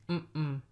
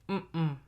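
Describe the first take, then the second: Both takes have the same delivery.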